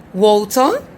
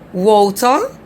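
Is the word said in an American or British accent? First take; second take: British; British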